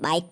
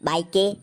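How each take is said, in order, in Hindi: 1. शब्द "k" पर खत्म होता है, उसके बाद कोई स्वर नहीं होता। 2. अंतिम "k" के बाद एक अतिरिक्त स्वर बोला जाता है। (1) "बाइक पढ़ेंगे" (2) "बाइके नहीं पढ़कर"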